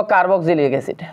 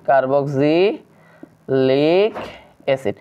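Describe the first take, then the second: First: Said in the usual way. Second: Very slow, low, drawn out in pieces; stretched syllables with pauses between; slow dictation. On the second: Shown as a demonstration. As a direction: spell it out by syllables as if writing along. Dictates slowly while writing it.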